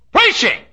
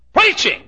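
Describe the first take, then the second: First: A very high, loud cry of the word; exclaimed. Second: A high ringing cry of the word; exclaimed. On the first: Preacher praising preaching, a loud high cry. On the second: Preacher praising preaching, a high ringing cry. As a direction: lift it high and let it fall. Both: Real, not acted.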